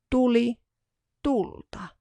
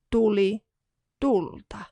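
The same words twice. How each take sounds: The two takes are said the same way.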